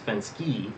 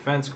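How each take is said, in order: First: The name ends with a final 'ee' sound. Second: The name ends without a final vowel sound. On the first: The speaker calls it right. "It turns out it's Fensky" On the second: The speaker calls it wrong. "I was saying it wrong. I was saying Gene Fensk before"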